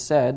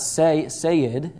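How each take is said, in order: First: The vowel is short, as in 'set'. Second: The vowel is long, as in 'say'. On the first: The speaker calls it right. "it's said" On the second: The speaker calls it wrong. "it's not sayed"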